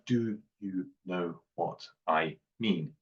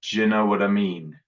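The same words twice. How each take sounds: First: Each word is said fully and carefully. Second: The words are partly run together and reduced. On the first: "And greenhouse" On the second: "let's go for the garden version"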